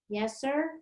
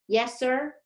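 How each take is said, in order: First: It is said at normal, softer volume. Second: It is said more loudly.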